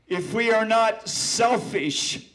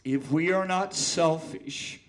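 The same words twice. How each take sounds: First: Dramatic, slow and loud; first reading, full force; slow loud recital. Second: Said in the usual way. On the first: Acted. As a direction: declaim it with weight. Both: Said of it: "I'm gonna repeat that last stanza".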